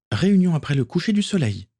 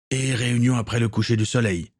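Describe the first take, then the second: First: Much higher, calm relayed order; Akiko's voice. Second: Near-natural narrator voice giving an order; captain Gaël. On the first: Akiko relaying the captain's order to John, high voice. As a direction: repeat "Réunion" lightly, up high. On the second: Captain Gaël ordering Akiko to call a meeting, calm. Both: A narrator's reading.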